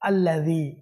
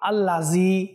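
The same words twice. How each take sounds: First: The middle consonant is a voiced th sound. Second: The middle consonant is a buzzing z sound. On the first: The speaker calls it right. "এখানে রয়েছে জাল। কি বলতে হবে" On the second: The speaker calls it wrong. "জি জা দিয়ে পড়ে ফেলি"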